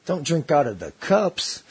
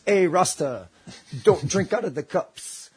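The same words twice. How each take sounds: First: "cups" lifted into a question, slowly; "Don't drink out of the cups" as a slow, questioning echo; puzzled echo. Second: Slow warning, lightly voiced Jamaican man; a hint of a Jamaican man warning someone; imitated Jamaican warning. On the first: Retold or imitated. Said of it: "And I was like". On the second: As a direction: pass on a slow, pointed heads-up as a Jamaican local. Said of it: "then Jamaican turns and looks at me and goes".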